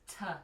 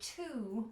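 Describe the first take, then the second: First: The vowel is reduced to a quick weak sound. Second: The vowel is a full rounded oo. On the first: "what you'll probably say is t" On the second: "rather than saying to"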